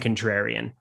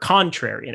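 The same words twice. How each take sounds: First: The word has the speaker's own plain pronunciation. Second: The word has an imitated, different pronunciation.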